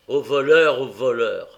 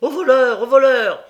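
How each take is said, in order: First: Said in the usual way. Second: Very loud high cry of thief; a crowd roaring stop thief; full-force shout. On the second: A narrator's reading. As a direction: bellow it like the whole crowd joining in. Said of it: "donnant une nouvelle force à ce cri".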